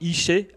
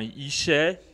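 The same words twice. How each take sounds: First: The vowel is said with a level tone. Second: The vowel is said with a rising tone. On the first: It means work. "avec un son égal, en fait, un son monotone" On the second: It means poverty. "c'est avec un E qui est montant"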